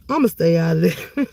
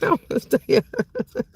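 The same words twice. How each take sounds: First: Said in the usual way. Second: Said through a laugh. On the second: Real, not acted. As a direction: chuckle the words out, amused.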